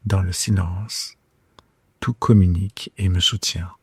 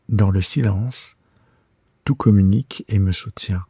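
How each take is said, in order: Both takes have the same delivery.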